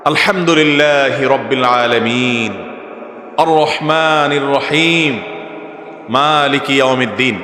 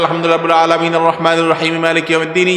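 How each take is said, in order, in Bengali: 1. এটি ধীরে ধীরে পড়া হয়, প্রতিটি আয়াতের পরে থামা হয়। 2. এটি এক নিঃশ্বাসে তাড়াতাড়ি শেষ করা হয়, কোনো থামা ছাড়াই। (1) "সূরা ফাতিহার প্রত্যেকটা আয়াতের পরে থামাটা সুন্নাত।" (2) "এক নিঃশ্বাসে পড়বেন"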